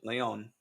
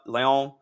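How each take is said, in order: First: The name is pronounced the Spanish way. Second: The name is pronounced the French way. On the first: The speaker calls it right. "There we go" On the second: The speaker calls it wrong. "that was French pronunciation"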